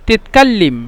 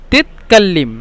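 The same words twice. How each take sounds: The two takes are said the same way.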